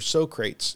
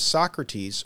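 First: The name is said the comic movie way. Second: The name is said the standard way.

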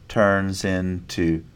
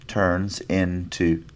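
The two takes are said the same way.

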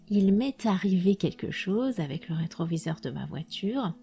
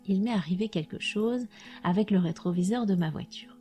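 First: A t sound links 'est' to 'arrivé'. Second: No t sound links 'est' to 'arrivé'. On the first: The speech is more formal. "Si c'est plus soutenu, je ferai la liaison" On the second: The speech is informal. "Si c'est informel, alors je la ferai pas"

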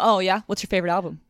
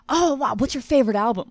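First: It sounds doubtful, like a testing quiz. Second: It sounds genuinely excited and interested.

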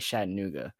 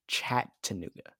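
First: It begins with a soft s-like sound. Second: It begins with a clear ch sound. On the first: "I keep saying it wrong" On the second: "it's CH"

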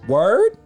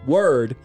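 First: The voice rises like a question. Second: The voice falls like a statement.

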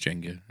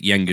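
First: The word is said with an English-style pronunciation. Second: The word is said with a German-style pronunciation. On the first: This is the corrected pronunciation. The speaker calls it right. "somebody corrected me and said it's Jenga" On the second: This is how the speaker assumed it was said. The speaker calls it wrong. "I pronounced it Jenga until the age of about 21"

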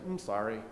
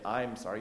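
First: The pronoun is dropped, leaving only the M. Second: The pronoun I is clearly pronounced. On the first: The speaker avoids owning the apology personally. "Kind of just get the M on there" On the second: The speaker owns the apology personally. "You don't say"

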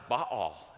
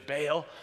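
First: The name is said the Hebrew way. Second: The name is said the English way. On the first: "Hebrews pronounced that way" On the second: "We say in English"

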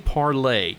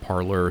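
First: The name is said with a French pronunciation. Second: The name is said with an Americanized pronunciation. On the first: This is the original pronunciation. The speaker calls it right. "It is supposed to be Parlay because it's French" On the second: This is the popular pronunciation. The speaker calls it wrong. "people were pronouncing it parlor"

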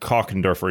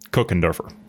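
First: The name is pronounced the German way. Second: The name is pronounced the American English way. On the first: "In German, it is" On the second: "In English, in the U.S., we would say"

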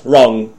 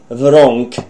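First: The word ends with a plain ng sound. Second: The word starts with w and ends in k. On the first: The speaker calls it right. "It's the opposite of right" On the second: The speaker calls it wrong. "You can't say wrong"

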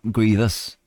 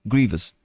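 First: The stress is on the second syllable. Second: The stress is on the first syllable. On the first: The speaker calls it wrong. "Not grievous" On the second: The speaker calls it right. "Primary stress is on the first syllable"

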